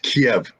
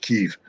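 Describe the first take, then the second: First: The name is said the old Soviet Russian way. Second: The name is said the American announcer way. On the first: "I'm an old school Soviet guy. It's Kiev" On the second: "if you're CNN uh, announcer, it's Kiev"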